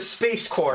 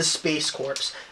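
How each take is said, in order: First: Corps is said like core, with no s. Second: Corps is said like corpse, ending in s. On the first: The speaker calls it right. "That is correct" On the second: The speaker calls it wrong. "Please don't say corpse again"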